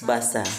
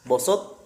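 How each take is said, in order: First: The first syllables sound thin and light. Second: The first syllables sound thick and dark. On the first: The speaker calls it right. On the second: The speaker calls it wrong. "jangan sampai huruf yang tipis terseret kepada huruf yang tebal"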